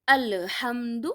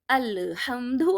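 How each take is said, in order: First: The l sound is said with a bounce. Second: The same.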